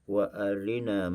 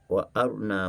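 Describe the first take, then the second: First: The vowel after r is quickly shortened. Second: The vowel after r is left out. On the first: "bila kita ikhtilas, kita membaca dengan hanya dua per tiga harakat" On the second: "dengan bacaan izhar"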